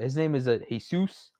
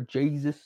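First: The name has a Spanish pronunciation. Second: The name has an English pronunciation.

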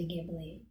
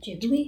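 First: The name is said with an English pronunciation. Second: The name is said with a Japanese pronunciation. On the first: This is the speaker's preferred casual way. "I like to say Ghibli" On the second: This is how native speakers say it. "the Japanese pronounce it Ghibli"

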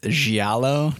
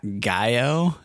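First: The middle of the word has an L sound. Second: The middle of the word has no L sound. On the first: The speaker calls it right. "It's giallo" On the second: The speaker calls it wrong. "not Gaio. And I don't know why I said it that way"

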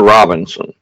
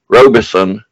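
First: The name has an n sound before the s. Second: The name has no n sound before the s. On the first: The speaker calls it wrong. "Robinson or Robinson?" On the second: The speaker calls it right. "There's no N in it, so I call him Robinson"

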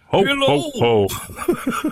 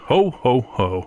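First: It is said without a put-on Santa voice. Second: It is said in a put-on Santa voice. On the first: It is a private reaction, not a character. "that wasn't my Santa impersonation" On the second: It is spoken as the character of Santa. "I would do my Santa voice"

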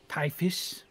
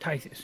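First: The middle consonant is an 'f' sound. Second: The middle consonant is a 'th' sound. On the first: The speaker calls it wrong. "Typhus. Hate it" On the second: The speaker calls it right. "Tithus, yes"

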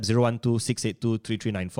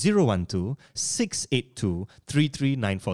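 First: The number is rattled off fast. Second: The number is said more slowly.

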